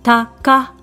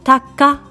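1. 短く、2音節で言われます。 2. 短く、2音節で言われます。

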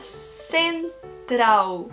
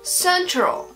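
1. Le L final sonne comme une voyelle 'oo'. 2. Le L final est un L sombre, moins net. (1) "en L final, à la fin d'un mot, il va avoir le son d'un OU" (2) "Il n'est plus un L très défini, il est un peu au milieu de la bouche"

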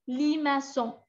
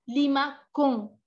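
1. La consonne du milieu se prononce comme s. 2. La consonne du milieu se prononce comme k.

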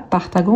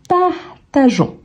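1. Le g est dur, comme dans go. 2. Le g est doux, comme dans measure. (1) "c'est qu'on ne dise pas partagon" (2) "mais plutôt partageons"

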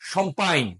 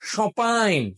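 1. শব্দের মাঝখানে একটি স্পষ্ট 'm' ধ্বনি শোনা যায়। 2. শব্দের মাঝখানে কোনো 'm' ধ্বনি শোনা যায় না। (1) "কেউ কেউ বলবে শম্পাইন, ... একেবারে খারাপ কথা বলেন" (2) "রিয়েল যারা ফরাসি তারা এই এম উচ্চারণ করবে না"

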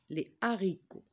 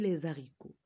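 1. On n'entend aucun son de liaison avant « haricots ». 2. On entend un son de liaison avant « haricots ».

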